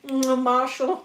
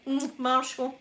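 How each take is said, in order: First: "Mm, Marshall" moaned dreamily, a bit louder; mock sleep-talk moan of "Mm, Marshall"; sleepy moan. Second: "Mm, Marshall" murmured quieter and drawn out; softer sleepy moan. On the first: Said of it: "I must have been like". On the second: Retold or imitated. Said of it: "She must have been like".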